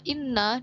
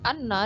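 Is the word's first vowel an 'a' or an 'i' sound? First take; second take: i; a. First: The first vowel is a high 'i' sound. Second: The first vowel is an open 'a' sound. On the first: "hamzahnya inna dengan kasroh" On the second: "hamzahnya anna dengan fathah"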